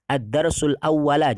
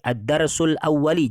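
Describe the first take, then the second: First: The final word ends with an a vowel. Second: The final word ends with an i vowel. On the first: "jangan sampai dibaca" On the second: "jangan sampai"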